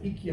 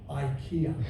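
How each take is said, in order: First: The word is given its Swedish pronunciation. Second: The word is given its English pronunciation. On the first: "In Sweden, they pronounce it IKEA" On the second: "in England, we pronounce it IKEA"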